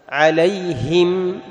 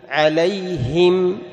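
No difference in how they are said.

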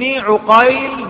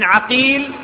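First: The first vowel after the ayn is u. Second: The first vowel after the ayn is a. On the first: "بضم العين" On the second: "بفتح العين"

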